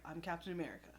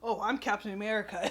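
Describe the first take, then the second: First: It sounds calm and reassuring. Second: It sounds smug and arrogant.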